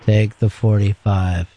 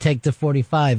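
First: It is said in a flat, deeper voice. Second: It is said in a normal, varied voice.

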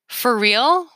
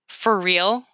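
First: The voice rises at the end. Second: The voice falls at the end. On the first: It is a reaction to good news. "This is good news" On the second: It is a reaction to bad news. "This is bad news"

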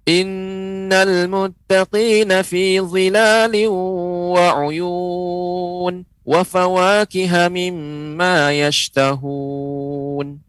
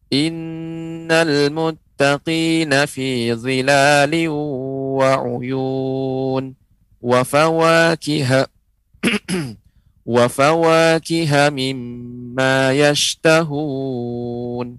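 First: It is recited at a fast pace. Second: It is recited at a medium pace. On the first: "bacaan hadar, ya, bacanya dengan cepat" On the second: "ini bacaan sedang standar"

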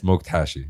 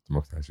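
First: The phrase is said slowly and carefully. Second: The phrase is said at a normal quick pace. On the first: "Can you please say it slowly?" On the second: "it sounded very weird"

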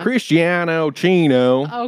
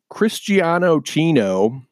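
First: It is said in a put-on Southern accent. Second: It is said in the speaker's plain accent.

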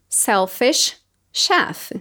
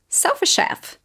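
First: It is said slowly, word by word. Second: It is said fast and linked together.

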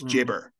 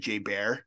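First: The second syllable sounds like 'burr'. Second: The second syllable sounds like 'bear'. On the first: The speaker calls it right. "like burr, not bear" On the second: The speaker calls it wrong. "we were pronouncing it wrong"

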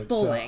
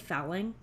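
First: The vowel rhymes with bowling. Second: The vowel does not rhyme with bowling. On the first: The speaker calls it right. "it's fulling. ... So it's like bowling, but with an F" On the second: The speaker calls it wrong. "Did I keep saying fowling?"

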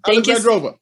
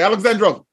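First: The name is said at a slower pace. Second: The name is said at a faster pace.

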